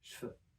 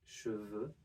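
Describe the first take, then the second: First: The vowel is dropped and an F is heard. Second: The vowel is kept and a V is heard.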